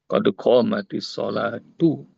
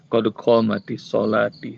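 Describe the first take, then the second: First: The last word ends with a u vowel. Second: The last word ends with an i vowel. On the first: The speaker calls it right. "harus bukan kodok mati solati" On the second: The speaker calls it wrong.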